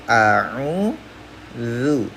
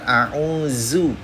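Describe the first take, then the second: First: The consonant is a voiced th sound, tongue at teeth. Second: The consonant is a plain buzzing z sound. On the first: The speaker calls it right. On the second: The speaker calls it wrong. "Jadi bukan"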